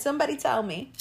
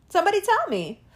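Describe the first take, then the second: First: Said in the usual way. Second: Insistent demand. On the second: Real, not acted. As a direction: press them hard for an answer. Repeated rhetorical demand.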